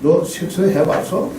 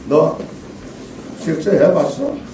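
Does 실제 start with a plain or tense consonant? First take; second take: plain; tense. First: The first consonant of 실제 is plain. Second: The first consonant of 실제 is tense. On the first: The speaker calls it wrong. "이러면 그게 우리 말맛이 살까요?" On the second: The speaker calls it right. "추격자에서 하정우를 신문하면서"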